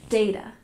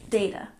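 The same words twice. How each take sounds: The two takes are said the same way.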